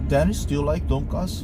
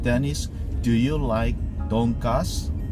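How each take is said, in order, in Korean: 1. 질문은 보통 속도로 말해요. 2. 질문은 천천히 또박또박 말해요.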